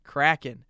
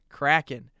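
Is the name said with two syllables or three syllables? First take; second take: two; two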